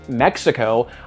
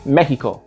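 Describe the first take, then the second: First: The word is said with an American accent. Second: The word is said with a Spanish accent. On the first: This avoids annoying English speakers. "pronouncing them like an American" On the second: This annoys many English speakers. "so many English speakers get really annoyed when I say Mexico"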